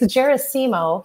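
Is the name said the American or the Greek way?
American. The name is said the American way. "here in the United States"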